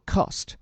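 It has a long back 'ah' vowel. "英音叫做"

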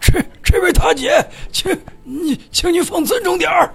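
It sounds like a halting old grandpa.

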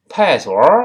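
The middle syllable's initial slips away through the nose. "那个声母顺着鼻子就跑了"

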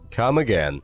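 It ends in a short falling statement tune. "如果是一个陈述的语气"

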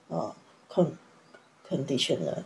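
The syllables are said choppily, broken apart. The speaker calls it wrong. "这样很破碎的在念一个字"

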